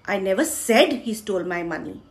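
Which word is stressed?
said. The stress falls on the word said. It was not said, but he did steal it. "मैंने बोला नहीं, पर उसी ने चुराया है"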